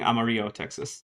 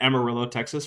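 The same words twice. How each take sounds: First: The name is said with Spanish-style sounds. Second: The name is said with English-style sounds. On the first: This is how a Spanish speaker would say it. "for not being Amarillo, Texas" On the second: This is how the city is actually called. "I am still angry at Amarillo, Texas"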